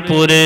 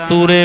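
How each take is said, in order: No difference in how they are said.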